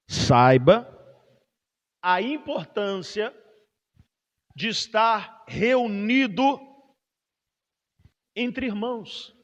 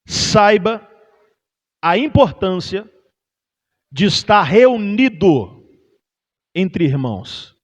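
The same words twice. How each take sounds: First: The sentence is spoken very slowly. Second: The sentence is spoken at a normal pace.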